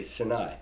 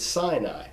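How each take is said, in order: First: "Sinai" said as sih-NIGH; short i opening "Sinai", weight on nigh; original pronunciation. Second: "Sinai" said as SIGH-nigh; Anglicized "Sinai", first syllable like sigh; familiar English pronunciation. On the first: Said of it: "but it's really Sinai". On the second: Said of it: "the English word we're so familiar with". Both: Shown as a demonstration.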